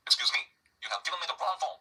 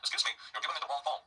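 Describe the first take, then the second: First: Higher, slow, emphatic reproach; acted angry complaint. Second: Said in the usual way. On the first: Foreign student to library assistant over wrong form, angry. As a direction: act out indignation, drive each stressed word home. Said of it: "이렇게 화가 난 거죠". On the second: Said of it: "이런 정도로 해도 되죠".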